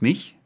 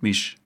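First: The word ends with a soft ch sound. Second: The word ends with an sh sound. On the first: "Statt Tisch und mich" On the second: "sagte man lieber Tisch und misch"

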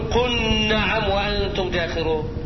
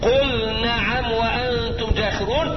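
First: The L merges into the following N sound. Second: The L is pronounced clearly before the N. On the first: The speaker calls it wrong. "ما جيش أقوم أضغم لي وأقول" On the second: The speaker calls it right. "ويقطع بالإظهار"

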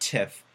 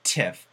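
First: The final consonant is a voiceless f. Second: The final consonant is a voiceless f.

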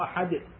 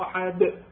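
First: The final consonant's echo sounds light and thin. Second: The final consonant's echo sounds heavy and full. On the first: The speaker calls it right. "لا قل هو الله احد، يعني كانما القلقله تصير بالكسر" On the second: The speaker calls it wrong. "ما اقول قل هو الله احد"

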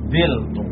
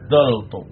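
First: A short form is said with i first. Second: A short form is said with a first. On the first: "lam kalimahnya dibuang, kemudian harokat pada ain kalimah dioper ke pak kalimahnya" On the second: "kalimatnya dibuang, fa kalimatnya harakatnya tetap"

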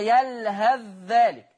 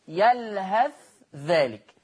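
First: The th sound merges into the following dh. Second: The th sound is pronounced clearly and separately. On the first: "حفص يضغم الثاء في الذال، يقرأها" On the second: "لكن ورش هيبين الثاء، ما هو إظهار"

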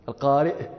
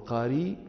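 First: It ends with a glottal stop after the vowel. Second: It ends in a long vowel, no glottal stop. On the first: "ويمكنكم أن تقولوا القارئ" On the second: "وقد تسهلون فتحذفون الهمزة وتقولون القاري"

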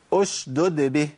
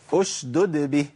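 The two takes are said the same way.

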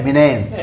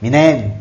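First: It is said quickly, contracted into two syllables. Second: It is said quickly, contracted into two syllables.

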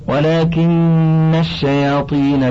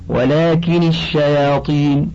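First: The n of lakin is doubled. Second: The n of lakin is single.

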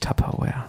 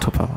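First: The word is said with an English pronunciation. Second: The word is said with a German pronunciation. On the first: This is the brand's original pronunciation. The speaker calls it right. "Eigentlich heißt es natürlich" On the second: This is how the name is said locally. The speaker calls it wrong.

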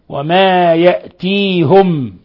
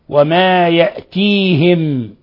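First: The 'h' is followed by a 'u' vowel. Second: The 'h' is followed by an 'i' vowel. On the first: "بضم الهاء مع الهمز" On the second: "بالهمز مع كسر الهاء"

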